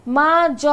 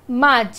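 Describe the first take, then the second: First: মা, জ broken apart with a pause between; split into syllables. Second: মাঝ said as one joined syllable, no break; one closed syllable. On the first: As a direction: chop মা and জ into two separate beats. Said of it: "এরম উচ্চারণ কিন্তু আমরা করি না". (মা আর জ আলাদা করে ভেঙে উচ্চারণ) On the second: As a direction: keep মাঝ together in one beat. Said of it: "রুদ্ধ দল তার পরেই রয়েছে". (মাঝ এক দলে একটানা উচ্চারণ) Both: Shown as a demonstration.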